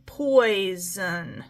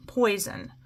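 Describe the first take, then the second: First: POISON slow, with "pois" held long; syllables drawn out. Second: Said in the usual way. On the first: Shown as a demonstration. Teacher checking where the syllable ends, syllables drawn out. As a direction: stretch "poison" into two beats. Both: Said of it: "it's not ending the syllable".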